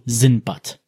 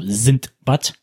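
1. Der Name wird ohne d-Laut gesprochen. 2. Der Name wird mit einem d-Laut gesprochen. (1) "die Variante ohne D, also Sindbad" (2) "mit D, also Sindbad, schreibt und spricht"

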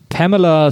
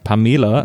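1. Der Name wird englisch ausgesprochen. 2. Der Name wird deutsch ausgesprochen.

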